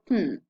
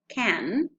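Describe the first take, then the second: First: It is said in its most reduced form. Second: It is said in its full strong form. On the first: "characteristic of very rapid speech" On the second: "Strong forms of can"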